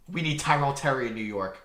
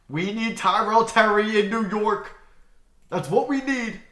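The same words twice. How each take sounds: First: Said in the usual way. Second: Higher, louder and slower, pleading; emphatic plea. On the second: Shown as a demonstration.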